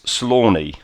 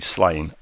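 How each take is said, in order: First: The name is said as two syllables. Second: The name is said as one syllable. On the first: It is the Irish pronunciation. "the Irish pronunciation" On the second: It is read the way it is spelt. "that's how it's spelt, and whenever I read it, I read Slain"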